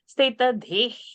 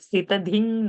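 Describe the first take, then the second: First: The second word ends in a breathy h sound. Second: The second word ends in a nasal ng sound. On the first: The speaker calls it right. "So from the throat, like that" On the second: The speaker calls it wrong. "visarga will not become n, stita dhing, no"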